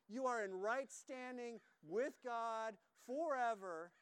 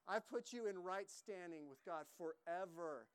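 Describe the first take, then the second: First: "You are in right standing with God forever" said slower and louder, leaning on "forever"; emphatic slow repeat. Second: Said in the usual way. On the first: Shown as a demonstration. Preacher repeating the promise to his congregation, slow and emphatic. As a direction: drive "forever" home, slowly and louder.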